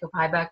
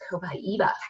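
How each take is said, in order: First: The word has an American English pronunciation. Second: The word has a Brazilian-style pronunciation. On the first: "I say Copaiba because, you know, I'm not Brazilian" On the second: "that's how you pronounce it in Brazil"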